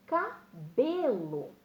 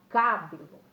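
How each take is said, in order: First: "cabelo" very slowly, CA, then long strong BE-lo; correct second-last stress. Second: "cabelo" with CA loud, the rest falling away; wrong first-syllable stress. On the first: Teacher showing how one says it, BE stressed in "cabelo". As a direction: stretch and punch BE in "cabelo". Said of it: "Eu falo". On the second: Teacher showing pupils what one doesn't say, CA stressed in "cabelo". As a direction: misplace the stress in "cabelo" onto CA. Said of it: "Eu não falo cabelo". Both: Shown as a demonstration.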